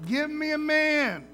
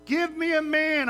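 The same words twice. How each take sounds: First: Slow, higher, louder giant's taunt; a mocking giant calling out the enemy camp; Goliath taunting. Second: Higher, louder mocking challenge; Goliath taunting. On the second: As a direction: jeer at them across the campfire. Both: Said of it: "Just taunting them".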